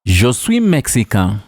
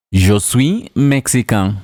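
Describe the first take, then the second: No difference in how they are said.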